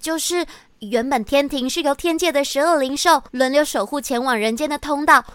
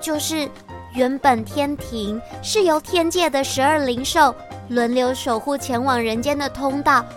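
First: It is said at a normal pace. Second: It is said more slowly.

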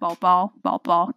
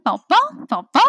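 First: It is said in a low, deep voice. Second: It is said in a high baby voice.

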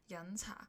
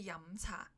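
First: The first syllable ends with open lips, an n. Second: The first syllable ends with closed lips, an m. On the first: The speaker calls it wrong. "假如你念错了" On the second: The speaker calls it right. "一定要闭嘴才可以把这个字发好音"

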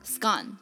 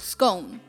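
First: The vowel rhymes with gone. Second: The vowel rhymes with bone.

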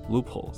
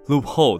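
First: Only the first syllable carries the stress. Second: Both syllables carry equal heavy stress. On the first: The speaker calls it right. "人家其实念出来的声音是loophole loophole 这样子的声音" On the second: The speaker calls it wrong. "很多人就会下意识的念错，念成什么loophole loophole，这样听起来就两个字都加重了"

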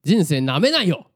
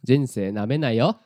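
First: The pitch falls on the final よ. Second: The pitch rises on the final よ.

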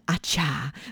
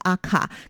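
First: The second syllable begins with a ch sound. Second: The second syllable begins with a k sound. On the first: This seems to be the proper pronunciation. The speaker calls it right. "好像是应该是念这个阿恰" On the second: This is how it would be read in English. The speaker calls it wrong. "如果照英文的念法可能是阿卡"

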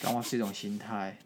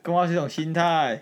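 First: It is said with ordinary, low energy. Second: It is said with more energy and spirit.

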